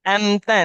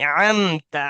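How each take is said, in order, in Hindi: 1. यह शब्द गले की ऐन ध्वनि के बिना बोला जाता है। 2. यह शब्द गले की ऐन ध्वनि के साथ बोला जाता है। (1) "अमता नहीं" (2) "अमता आइन"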